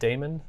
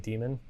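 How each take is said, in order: First: The first vowel sounds like the vowel in 'day'. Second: The first vowel sounds like the vowel in 'dee'. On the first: "I've always said daemon because there's an A in there" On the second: "so people just say demon"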